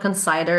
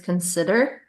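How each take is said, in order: First: The middle sounds like the word cider. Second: The middle does not sound like cider. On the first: The speaker calls it wrong. "it's not consider, There's no cider in in there" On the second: The speaker calls it right. "it's consider"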